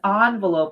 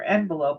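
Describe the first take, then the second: First: The word is said in a fancy-sounding way. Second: The word is said in a plain, ordinary way. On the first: "envelope is kind of fancy" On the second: "for envelope"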